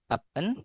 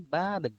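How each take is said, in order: First: The final consonant stays in the first syllable. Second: The final consonant moves into the next syllable. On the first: The speaker calls it wrong. "Bukan baben" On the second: The speaker calls it right. "tapi baben"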